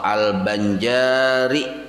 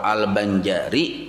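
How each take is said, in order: First: The vowel after the j is long. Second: The vowel after the j is short. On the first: A Banjar person descended from Datuk Kalampayan. "Kalau jimnya panjang" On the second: A person from Banjar. "jimnya itu handap"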